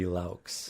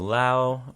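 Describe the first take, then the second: First: The name ends with a 'ks' sound. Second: The name ends without a 'ks' sound. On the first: "So the X is is part of the pronunciation"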